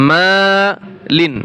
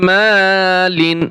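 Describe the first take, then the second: The two takes are said the same way.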